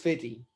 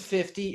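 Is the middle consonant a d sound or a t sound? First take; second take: d sound; t sound. First: The middle consonant is a soft d. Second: The middle consonant is a clear t. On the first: The speaker calls it right. "It's actually F I D D Y" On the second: The speaker calls it wrong. "it wasn't fifty"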